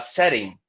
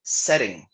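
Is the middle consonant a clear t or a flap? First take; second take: flap; flap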